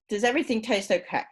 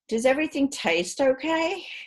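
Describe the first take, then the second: First: The pitch falls at the end. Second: The pitch rises at the end. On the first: The speaker genuinely asks whether it is fine or not. "In contrast" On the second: The speaker assumes everything is fine and seeks confirmation. "With a rising tone"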